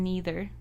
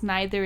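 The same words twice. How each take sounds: First: First syllable of "neither" rhymes with knee; "neither" starting like "knee"; NEITHER with ee vowel. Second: "neither" starting like "nigh"; NEITHER with eye vowel. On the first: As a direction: say "neither" as NEE-ther. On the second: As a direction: say "neither" as NYE-ther. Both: Shown as a demonstration. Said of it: "one thing was neither and neither".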